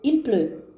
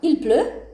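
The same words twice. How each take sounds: First: The pitch falls at the end like a statement. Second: The pitch rises at the end like a question. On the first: It states a fact. "Il pleut é uma afirmação" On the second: It asks a question. "il pleut é uma pergunta"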